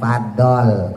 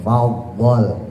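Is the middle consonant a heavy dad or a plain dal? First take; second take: plain dal; heavy dad. First: The middle consonant is a plain light d. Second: The middle consonant is heavy, with puffed cheeks. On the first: The speaker calls it wrong. "Kalau fadol dal" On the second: The speaker calls it right. "Faddaltukum dotnya gembungin"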